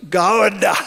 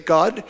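First: The word is stretched out into three syllables. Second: The word is said as one short syllable. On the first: "actually it's three syllables" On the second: "which I assumed was a monosyllable"

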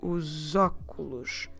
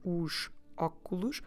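First: The two words are run together. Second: The two words are said separately. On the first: The speaker calls it right. "We will run those two words together" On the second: The speaker calls it wrong. "normally we don't say os óculos"

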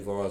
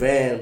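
First: The vowel sounds like the one in 'dawn'. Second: The vowel sounds like the one in 'can'. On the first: The speaker calls it right. "I just say Vaughn" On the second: The speaker calls it wrong. "people be saying like Van, bro. I don't fuck with that"

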